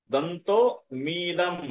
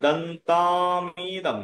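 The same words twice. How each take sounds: First: দন্ত মিদম split into two, the m starting the second; broken-up দন্ত মিদম as printed; read as written. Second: দন্তামিদম as one very slow, stretched word; slow, unbroken model of দন্তামিদম; joined pronunciation. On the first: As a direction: say দন্ত, pause, then মিদম. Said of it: "এরকম লেখা আছে না". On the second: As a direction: run দন্তম into ইদম, holding the long vowels. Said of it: "উচ্চারণটা কি করবো আমরা?". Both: Shown as a demonstration.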